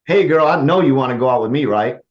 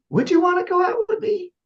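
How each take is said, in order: First: Louder, sure, swaggering; assumptive confident tone. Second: Much higher, hesitant asking; high doubtful tone. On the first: Coach shows the confident assumptive ask. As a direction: say it like she already said yes. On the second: Coach shows a doubtful guy asking for a date. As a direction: ask her out full of doubt. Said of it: "I'll use this in a dating scenario". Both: Shown as a demonstration.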